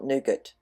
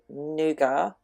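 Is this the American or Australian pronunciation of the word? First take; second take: American; Australian. First: It is said the American way. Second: It is said the Australian and British way. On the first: "not nougat" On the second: "Because I live in Australia and we generally follow the English pronunciation of things, we actually say nougat"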